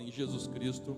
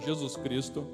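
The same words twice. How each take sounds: First: It is said at normal loudness. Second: It is said more loudly and forcefully.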